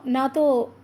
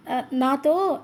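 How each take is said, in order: First: Said in the usual way. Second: "ఆ, నాతో," broken, with the syllables stuck and restarted; mild stutter on "నాతో"; stammering. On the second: A narrator's reading. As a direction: catch on "నాతో" before getting it out. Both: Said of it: "ఆగి ఆగి అవస్థలు పడుతూ".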